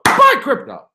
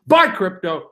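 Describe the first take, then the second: First: "Buy crypto" higher and louder, rallying; called out. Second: Said in the usual way. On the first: Pretend. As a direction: shout it like a slogan. Chant repeated louder.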